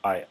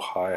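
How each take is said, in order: First: The word starts directly with the vowel. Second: The word starts with an audible h sound. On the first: The speaker calls it right. "keep that silent ... Say" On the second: The speaker calls it wrong. "It's a common beginner mistake to say"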